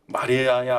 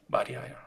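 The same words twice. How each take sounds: First: Said in the usual way. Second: 마리아야 said much softer, tender and close; soft calling. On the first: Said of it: "하고 이름을 부르신 거예요". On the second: Acted. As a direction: breathe 마리아야 gently. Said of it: "이름을 부르신 거예요". (마리아야를 아주 작고 다정하게)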